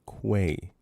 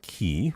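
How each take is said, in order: First: The word starts with a kw sound. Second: The word starts with a plain k sound. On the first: The speaker calls it right. "With a Q. ... It's Quay" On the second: The speaker calls it wrong. "Not key. I don't know who says key"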